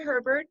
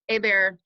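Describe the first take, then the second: First: The name starts with H and ends in T. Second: The name has no H and no final T. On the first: The speaker calls it wrong. "I said it wrong" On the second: The speaker calls it right. "you don't pronounce the H and you don't pronounce the final consonant"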